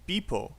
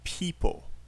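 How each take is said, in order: First: The word begins with a b-like sound. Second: The word begins with a clear p sound. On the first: The speaker calls it wrong. "you said people" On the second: The speaker calls it right. "it should be people"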